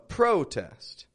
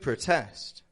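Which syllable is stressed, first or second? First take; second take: first; second. First: The stress is on the first syllable. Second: The stress is on the second syllable. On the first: It is used as a noun. "a protest" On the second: It is used as a verb. "to protest"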